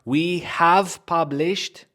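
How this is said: The word 'have' is stressed. The speaker calls it wrong. "Don't stress this word"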